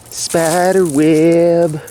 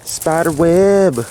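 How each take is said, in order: First: Very slow, high creeped-out drawl. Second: High, slow, startled exclaim. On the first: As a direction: stretch it out, spooked. Repeats spider web drawn out. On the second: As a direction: caught off guard by a web. Startled at a spider web. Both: Real, not acted.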